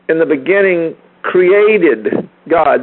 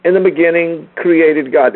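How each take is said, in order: First: Slow, with "created" drawn out and weighted; deliberate read that lands on "created"; stress on created. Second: Said in the usual way. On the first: Shown as a demonstration. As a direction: lean on "created", the action word. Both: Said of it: "The emphasis is on the action, created".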